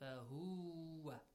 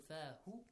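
First: The final vowel is stretched long. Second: The final vowel is short. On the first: The speaker calls it wrong. "So you don't say fahuwa" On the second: The speaker calls it right. "Dhamma is a short vowel"

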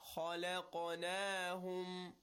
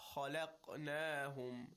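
First: The qaf is released with an echoing bounce. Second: The qaf is stopped flat with no bounce. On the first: The speaker calls it right. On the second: The speaker calls it wrong.

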